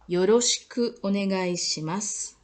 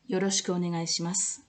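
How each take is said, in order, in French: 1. La phrase est dite très lentement. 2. La phrase est dite à un rythme normal.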